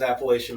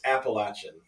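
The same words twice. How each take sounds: First: Appalachian said as appa-LAY-shun; Appalachian with long A. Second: Appalachian said as appa-LATCH-un; Appalachian with short A. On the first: Admitting a lifelong mispronunciation, Appalachian as appa-LAY-shun. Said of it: "I thought it was". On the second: Correcting a friend on the name, Appalachian as appa-LATCH-un. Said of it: "It's Appalachian". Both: Shown as a demonstration.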